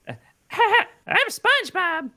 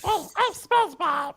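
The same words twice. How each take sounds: First: Much higher, very slow cartoon squeak; a terrible try at SpongeBob's voice; bad SpongeBob impression. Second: Much higher squeaky cartoon voice, drawn out; SpongeBob impression again. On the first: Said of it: "I can't do SpongeBob". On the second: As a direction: another stab at SpongeBob, still off. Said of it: "No, that's not it".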